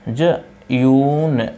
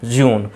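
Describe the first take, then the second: First: जयून stretched very slowly as two syllables, ja-yoon; wrong split pronunciation. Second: जून said quickly as one syllable, joon; correct pronunciation. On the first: Teacher slowly sounding out the wrong way for students. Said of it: "जयून और जयून को मिला करके". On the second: Teacher giving students the right one-syllable reading. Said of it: "जून लिखा जाएगा और जून ही पढ़ा जाएगा". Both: Shown as a demonstration.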